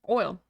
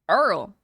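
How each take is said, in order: First: The word is pronounced like 'oil'. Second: The word is pronounced like 'earl'.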